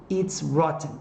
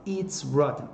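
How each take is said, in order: Both takes have the same delivery.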